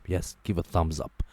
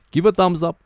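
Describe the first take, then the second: First: Said in the usual way. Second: Loud call. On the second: Real, not acted. Vlogger urging viewers to like the video, higher and louder. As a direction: Give a thumbs up, higher and louder.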